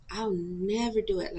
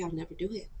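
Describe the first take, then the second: First: Slow, with NEVER stressed and drawn out; emphatic vow. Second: Said in the usual way. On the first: Retold or imitated. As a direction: lean hard on "never", taking it slowly. Promise repeated for emphasis.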